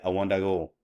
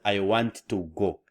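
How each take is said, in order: First: Want and to blend into one word. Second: Want and to are said as separate words. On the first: The speaker calls it right. "Blending want and the two" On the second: The speaker calls it wrong.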